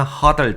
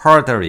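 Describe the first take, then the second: First: "huddle" with an open uh, no r; huddle pronunciation. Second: "hurdle" said loud, with an r-coloured first vowel; hurdle pronunciation. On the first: Teacher contrasting two similar words, "huddle" without r. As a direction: say "huddle" with a plain short-u first syllable. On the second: Teacher contrasting two similar words, "hurdle" with its r. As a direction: punch out "hurdle", r in the first syllable. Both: Shown as a demonstration. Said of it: "발음도 다르고요".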